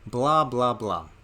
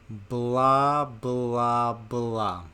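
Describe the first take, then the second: First: It is said at a normal speed. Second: It is said more slowly still. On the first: "say it with me" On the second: "Even slower"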